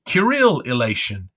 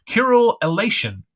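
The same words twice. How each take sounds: First: Said in the usual way. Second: Curule elation flung out high and loud, falling on elation; high exclamation. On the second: Acted. Issy crying out to her mirror-self, high and loud. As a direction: cry Curule elation up high, then let it fall. Ecstatic exclamation in Issy's reverie.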